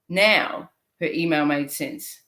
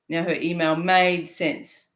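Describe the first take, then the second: First: The stress falls on the word now. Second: The stress falls on the word made.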